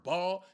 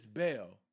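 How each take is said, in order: First: Baal said the way people usually say it; common wrong Baal. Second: Baal said the proper way, lower; corrected Baal. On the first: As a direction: say Baal like the folks the speaker corrects. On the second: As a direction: correct them with the proper Baal, dropping low. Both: Shown as a demonstration. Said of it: "Y'all not even saying it right".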